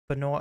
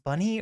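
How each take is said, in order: First: It sounds like be-noy, two syllables. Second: It sounds like the word bunny. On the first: "I always say Benoy, but that doesn't sound right" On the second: "Is it pronounced Bunny"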